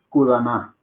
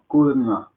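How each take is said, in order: First: A full vowel is heard between d and n. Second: The d and n are joined with no vowel. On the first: The speaker calls it wrong. "Uno no dice kudana" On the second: The speaker calls it right. "aquí se dice D y N pegados"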